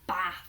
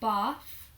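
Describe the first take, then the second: First: The vowel is a short, flat a sound. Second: The vowel is a long, broad ah sound. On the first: "In the other accent, where they would say bath using the A vowel sound" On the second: "so in my accent, I say bath using the R vowel sound"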